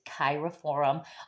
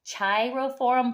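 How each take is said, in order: First: The word begins with a hard K sound. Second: The word begins with a soft CH sound. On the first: "it's a hard C for the Cheirophorum" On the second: "I've also heard people pronounce it"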